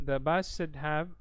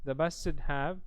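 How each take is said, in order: Both takes have the same delivery.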